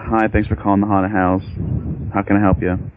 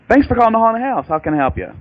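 First: It sounds bored and unenthusiastic. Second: It sounds lively and enthusiastic.

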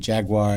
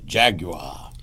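First: Jaguar is pronounced the American way. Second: Jaguar is pronounced the British way. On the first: "the Americans say Jaguar" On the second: "and they say Jaguar"

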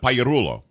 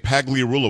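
First: The name is pronounced with Italian sounds. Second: The name is pronounced with English sounds. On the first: This keeps the original heritage pronunciation. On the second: The family wanted to sound American.

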